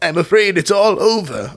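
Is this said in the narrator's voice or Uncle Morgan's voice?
Uncle Morgan. It is said in a put-on Uncle Morgan voice.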